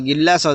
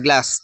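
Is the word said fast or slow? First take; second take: slow; fast. First: The word is said slowly, in full. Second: The word is said fast, shortened.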